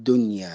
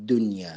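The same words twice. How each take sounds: The two takes are said the same way.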